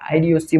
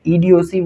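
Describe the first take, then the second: First: The word begins with an 'eye' sound. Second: The word begins with an 'ee' sound. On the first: "आईडीओसी बोल लो" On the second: "ईडीओसी बोल लो"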